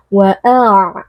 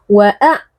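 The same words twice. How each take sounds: First: "wa'a" with the final throat sound drawn on; flowing ain. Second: "wa'a" stopped abruptly at the ain; wrongly cut ain. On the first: Teacher shows correct ain, "wa'a" left flowing. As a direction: let the voice keep flowing through the end of "wa'a". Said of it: "harus ada aliran suaranya". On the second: Teacher shows the mistake, "wa'a" cut off short. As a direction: chop off the sound at the end of "wa'a". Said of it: "tidak boleh suaranya langsung diputuskan". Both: Shown as a demonstration.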